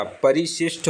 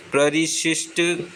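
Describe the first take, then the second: First: परिशिष्ट said as "pa-ri-shisht"; correct pronunciation. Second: प्ररिशिष्ट said with pr run together; wrong pronunciation. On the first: Teacher correcting to परिशिष्ट, pronounced "parishisht". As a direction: begin परिशिष्ट with a separate pa. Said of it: "परिशिष्ट होता है". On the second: Teacher showing the mistaken प्ररिशिष्ट, said as "prarishisht". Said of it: "नहीं होता". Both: Shown as a demonstration.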